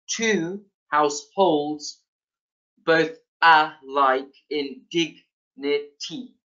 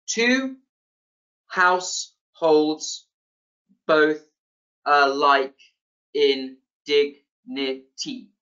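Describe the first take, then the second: First: Slow alternating beat on TWO HOUSEHOLDS BOTH ALIKE IN DIGNITY, every other syllable stressed. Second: Slow, syllable by syllable with gaps; counting out syllables. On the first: Lecturer demonstrating iambic pentameter to students, stressing every other syllable. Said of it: "you stress each, um, every other syllable". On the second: Lecturer showing students ten syllables in a line, counted out syllable by syllable. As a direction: break TWO HOUSEHOLDS BOTH ALIKE IN DIGNITY into separate, evenly spaced syllables. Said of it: "you can count this yourself".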